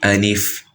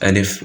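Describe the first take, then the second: First: The L carries a full clear i vowel. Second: The L lacks a full clear i vowel. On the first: The speaker calls it right. "It's supposed to be alif ... with the kasra" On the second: The speaker calls it wrong. "pronounce it like this, alif, which is wrong"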